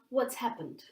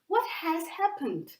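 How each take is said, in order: First: The word 'has' is reduced to 's. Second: The word 'has' is said in full. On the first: "to pronounce it faster, it will become" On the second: "you will say"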